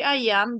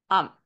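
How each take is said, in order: First: It is said as two full separate words. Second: It is said as one contracted syllable. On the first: "En vez de decir I am" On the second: "Se contrae de la siguiente forma"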